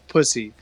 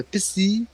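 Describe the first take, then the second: First: The name is said with an American pronunciation. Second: The name is said with a French pronunciation. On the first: "I'll pronounce it the American way a couple times" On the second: "Pissy in French"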